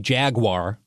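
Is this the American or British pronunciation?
American. It is said the American way.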